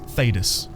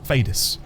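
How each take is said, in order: First: The last syllable is stressed lightly. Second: The last syllable is stressed lightly.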